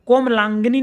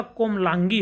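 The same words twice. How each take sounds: First: कोमलांगिनी with an added "ni"; wrong word form. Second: Said in the usual way. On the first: Shown as a demonstration. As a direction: say the mistaken longer form कोमलांगिनी. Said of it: "नहीं होता". (कोमलांगिनी, अंत में नी) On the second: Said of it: "होता है".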